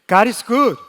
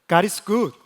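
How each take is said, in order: First: It is said more loudly. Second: It is said at normal volume.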